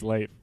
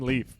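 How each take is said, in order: First: The name is said with a 'lay' vowel. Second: The name is said like the word leaf. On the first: This is the character's actual name. The speaker calls it right. "even though his name is Leif" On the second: This is how other characters wrongly say it. The speaker calls it wrong. "Ava and Casper always call him Leaf"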